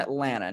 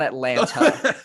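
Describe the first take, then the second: First: The second T sound is dropped. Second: The second T sound is clearly pronounced. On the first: This is how locals say it. The speaker calls it right. "Nobody uses the T" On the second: This is how outsiders say it. The speaker calls it wrong. "not Atlanta"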